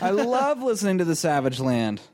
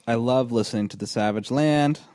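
First: It is read with lively excitement. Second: It is read flatly, without excitement.

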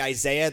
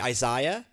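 First: It is said with a non-British pronunciation. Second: It is said with a British pronunciation. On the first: "Brits don't say Isaiah" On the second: "They say Isaiah"

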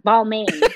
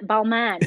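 First: The last syllable rhymes with romaine. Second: The last syllable does not rhyme with romaine. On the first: The speaker calls it wrong. "not balmain" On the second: The speaker calls it right. "Balman, balman"

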